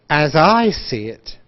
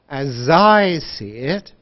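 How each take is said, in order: First: The words run smoothly together, linked. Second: The words run smoothly together, linked.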